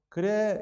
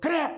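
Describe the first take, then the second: First: It is said in a calm, relaxed tone. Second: It is said in an angry, sharp tone. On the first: The person is at peace. "앞에는 어 그래 그러면 아, 이 사람 굉장히 지금 뭔가 평안하구나" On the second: The person is very upset. "그래 뒤건 이 사람 엄청 화났구나"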